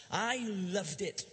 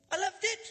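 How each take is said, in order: First: Said in the usual way. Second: Higher, louder, rising on "it"; "I loved it" thrown out high and joyful; excited. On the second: Shown as a demonstration.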